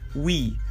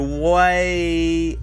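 First: The vowel sounds like 'ee', as in English. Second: The vowel sounds like 'ay', as in French. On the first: The speaker calls it right. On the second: The speaker calls it wrong.

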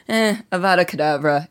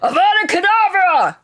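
First: It is said half-heartedly, without feeling. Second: It is said with furious, angry force.

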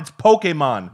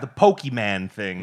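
First: The word is pronounced in a Japanese-style way. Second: The word is pronounced in an anglicized way. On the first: It corrects the parent with the proper name. The speaker calls it right. "It's a Japanese word, and we're Japanese. Can't you fucking say it right?" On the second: It imitates a parent mispronouncing the name. The speaker calls it wrong. "Did they say it the wrong way?"

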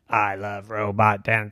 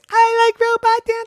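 First: It is said in a normal voice. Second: It is said in a very high voice.

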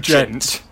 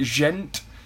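First: It begins with a hard 'dj' sound. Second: It begins with a soft French 'zh' sound. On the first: "Rather than de gent" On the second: "you put a very French accent on that"

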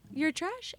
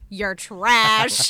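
First: It is said as a friendly question. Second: It is said as a hostile statement.

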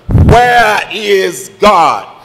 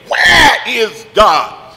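First: It is said a little louder. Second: It is yelled out and screamed.

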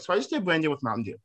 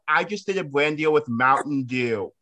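First: It is said at normal volume. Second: It is said loudly.

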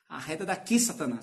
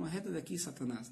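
First: It is said harshly, with forceful anger. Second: It is said softly, with love and tenderness.

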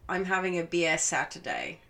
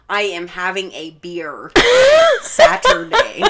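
First: It is said in an Australian accent. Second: It is said in an American accent.

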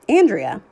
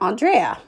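First: The name is said as it looks when spelled. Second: The name is said in its owner's own way. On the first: The speaker calls it wrong. "which is spelled like Andrea" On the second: The speaker calls it right. "but it's really Andrea"

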